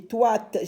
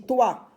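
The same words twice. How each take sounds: First: Toi with an extra T sound tacked on the end; demonstrating toi running on into t; wrong syllable cut. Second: Toi ending open on the vowel, no final t; demonstrating toi as one open syllable; syllable stops short. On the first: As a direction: close toi with a released t. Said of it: "j'ai pas dit toi t". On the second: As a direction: stop cleanly at the end of toi. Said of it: "Ça s'arrête ici". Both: Shown as a demonstration.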